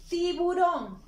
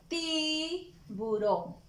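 First: Tiburón called out higher and louder, a cheerful reveal; excited naming of the picture; bright announcing. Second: Tiburón drawn out very slowly, ti-bu-rón syllable by syllable; stretched syllables. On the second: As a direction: spell Tiburón out slowly for small children. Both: Shown as a demonstration. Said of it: "Está iniciando con la sílaba ti".

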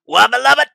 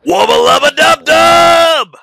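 First: Higher, louder cartoon scientist voice; squeaky Rick on helium. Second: Rick Sanchez impression. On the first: Shown as a demonstration. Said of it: "that's Rick on helium". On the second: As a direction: bellow it like a gravel-voiced mad scientist. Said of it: "I can actually do a pretty good Rick Sanchez".

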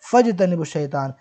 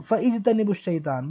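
First: फजतनिबुश, fa joined straight to jtanibush; फजतनिबुश as one flowing word; correct joined form. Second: फइजतनिबुश said with the i sounded after fa; फइजतनिबुश, fa-ijtanibush, not joined; wrong hamza form. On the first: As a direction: read फजतनिबुश शैतान with the hamza dropped. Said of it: "बल्कि". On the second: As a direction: read फइजतनिबुश शैतान with the vowel kept. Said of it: "नहीं पढ़ते हैं उसको". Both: Shown as a demonstration.

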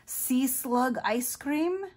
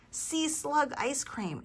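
First: High, slow question rising on "cream"; asking eagerly. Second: High, slow "Sea slug ice cream" falling as an answer; drawn-out "Sea slug ice cream", no question; announcing the treat. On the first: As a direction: draw out "Sea slug ice cream?" as a loud, hopeful question. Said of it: "asked Clark". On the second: Amanda answers with her treat. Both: A narrator's reading.

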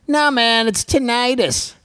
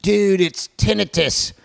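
First: Higher, "tinnitus" said as tin-EYE-tus; mock rival know-it-all; imitating a correcting fan. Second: "tinnitus" said as TIN-ih-tus, mock corrective; lightly voiced know-it-all fan; imitating a correcting fan. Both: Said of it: "I'm gonna get millions of".

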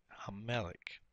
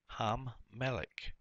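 First: Said in the usual way. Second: "Ham Melech" slowly, holding the doubled m; doubled first letter. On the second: Shown as a demonstration. Teacher showing the doubling of the first letter, doubled m drawn out. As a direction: stretch the m between "Ham" and "Melech". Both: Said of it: "the doubling of the first letter".

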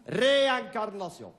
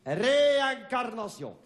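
First: Said in the usual way. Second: Slow, higher, solemn title. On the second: Shown as a demonstration. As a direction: drag the title out. (titre solennel et lent)

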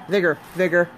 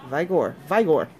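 First: Vigor said as VIG-er, short I like in big; corrected pronunciation. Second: Vigor said as VYE-gor, long I; unsure pronunciation. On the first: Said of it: "Vigor, right?". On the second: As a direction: Vigor tried with the I like in eye, stress on the first syllable. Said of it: "I'm saying it wrong". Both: Shown as a demonstration.

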